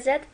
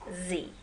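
First: The letter name is said the British way. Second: The letter name is said the American way. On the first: "زد بریتیش انگلیش یا انگلیسی که در بریتانیا صحبت میکنن" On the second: "امریکایی ها به اون میگن زی"

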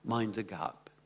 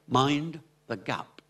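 First: The words are said evenly, without strong beats. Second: The words are said with strong, energetic stress beats. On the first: The speaker calls it wrong. "Pas mind the gap" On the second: The speaker calls it right. "mais mind the gap. L'anglais est énergique à cause de l'accent d'intensité"

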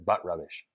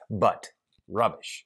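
First: It is said with no pause after 'but'. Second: It is said with a pause after 'but'.

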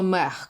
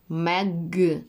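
First: The word ends in a breathy h sound. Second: The word ends in a hard g sound. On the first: The speaker calls it wrong. "Не треба мех казати" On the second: The speaker calls it right. "Щоб я чула твердий г"

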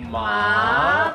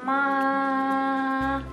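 First: The pitch rises toward the end. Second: The pitch stays level throughout. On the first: "the second will be ma. You go up like ma" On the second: "First sound just ma. Stay one tone"

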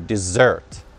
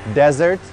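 First: The stress is on the second syllable. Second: The stress is on the first syllable. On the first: It means a sweet course after a meal. "Ударение на второй слог, в конце слова" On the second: It means a dry sandy region. "А вот с одной буковкой S это desert, пустыня"

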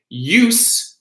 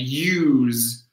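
First: The word ends with a hissing 's' sound. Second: The word ends with a buzzing 'z' sound. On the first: It is a noun: the purpose of something. "Use is the noun" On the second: It is a verb: to make use of something. "we have that Z at the end"

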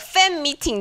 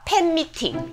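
First: The first word begins with an f sound. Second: The first word begins with a p sound. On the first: "fan meeting 的话" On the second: "变成pen meeting"

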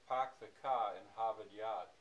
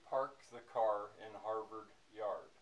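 First: The R sounds are dropped. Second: The R sounds are fully pronounced. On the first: This is how people in the Boston area say it. "In Boston area, they would say something like" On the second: This is the local mid-Atlantic way of saying it. "Where I live, we would say"

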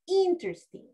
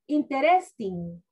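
First: It is pronounced with English-style sounds. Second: It is pronounced with Spanish-style sounds. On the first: The speaker calls it right. "In English, we say" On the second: The speaker calls it wrong. "Pronouncing word like in Spanish"

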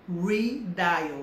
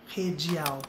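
First: The word is pronounced with English sounds. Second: The word is pronounced with Portuguese sounds. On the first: The speaker calls it right. "a verdade é que a pronúncia é redial" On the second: The speaker calls it wrong. "em português essa seria a pronúncia"

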